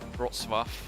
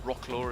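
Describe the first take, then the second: First: The name is said the native Polish way. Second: The name is read out letter by letter.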